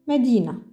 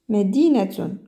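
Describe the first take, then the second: First: The word ends on -na with no -tun. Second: The word ends with a pronounced -tun syllable. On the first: No vowel marks are written on the final letter. "Sans harakat, sans harakat sur le ta" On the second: Vowel marks are written on the final letter. "vous devez la prononcer et ça fait Medinatun"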